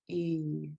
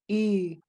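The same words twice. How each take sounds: First: The long vowel is said on a low tone. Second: The long vowel is said on a high tone. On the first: "long, low E or a double E" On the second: "a high tone E"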